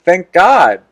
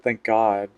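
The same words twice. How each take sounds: First: Said clearly for everyone; louder repeat. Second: Muttered. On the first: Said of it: "I said". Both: Real, not acted.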